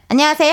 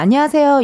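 First: It is said in a delinquent girlfriend character voice. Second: It is said in her own normal greeting voice.

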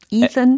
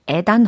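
First: The name is said with English sounds. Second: The name is said with Korean sounds.

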